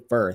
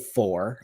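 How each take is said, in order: First: The vowel is a reduced 'ur' sound. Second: The vowel is a full 'or' sound. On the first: This is a Midwestern habit. "I say fur. It's such a Midwest thing" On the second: This is the standard way to say it. "I don't say for"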